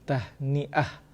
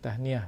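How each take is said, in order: First: It has a glottal catch before the last syllable. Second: It is said smoothly with no glottal catch. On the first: This is the original form. The speaker calls it right. "dia asalnya tahniah" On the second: This is the everyday local form. The speaker calls it wrong. "kalau kita dalam bahasa Melayu sebut tahniah"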